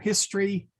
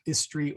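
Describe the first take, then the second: First: The H at the start is sounded. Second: The H at the start is silent. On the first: The speaker calls it right. "the H is pronounced" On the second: The speaker calls it wrong. "not istry"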